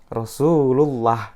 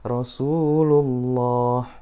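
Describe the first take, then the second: First: The L sound is thin and light. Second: The L sound is thick and heavy. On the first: The speaker calls it wrong. "Cara yang salah ketika baca adalah" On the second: The speaker calls it right. "tafkhim atau te tebal"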